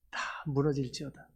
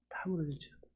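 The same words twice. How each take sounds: First: Said in the usual way. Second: Much softer, whispered repeat of 무너질지어다; whispered echo. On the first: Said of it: "repeats prophecy line". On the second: Shown as a demonstration. Preacher echoing the prophecy to the church, hushed whisper. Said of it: "repeats prophecy softer".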